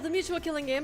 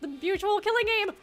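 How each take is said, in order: First: It is said in a Midori-style voice. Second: It is said in a Mickey Mouse-style voice. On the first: "maybe the Midori voice or something?" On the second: "The Mickey Mouse voice"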